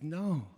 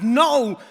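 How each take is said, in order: First: Gentle, restrained refusal; soothing and tender. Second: Huge high-pitched yell to stop someone; desperate, booming cry of alarm; urgent shout. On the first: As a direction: say it kindly, without shouting. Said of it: "in a gentle voice". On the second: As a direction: shout it out with full force. Old man stops rabbit's leap. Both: Acted.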